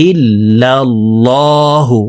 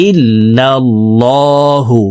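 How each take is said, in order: No difference in how they are said.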